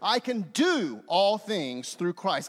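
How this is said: The word do is stressed. "this time I circle do"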